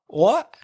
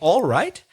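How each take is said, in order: First: It is squashed into one short syllable. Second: Both words are pronounced fully and clearly. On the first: "they don't say it very clearly" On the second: "They're actually saying"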